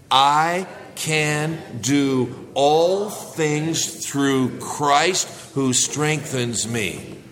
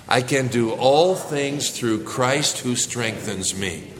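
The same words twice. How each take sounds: First: Each word drawn out slowly for the congregation to join; slow group recitation. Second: A little faster. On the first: Preacher leading his church in unison, slow. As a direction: lead the church through the verse slowly, word by word. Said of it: "Let's try it all together". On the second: Preacher urges the church to recite a bit faster, unison. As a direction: still slow, but moving along more than before. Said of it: "Let's say a little faster". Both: Shown as a demonstration.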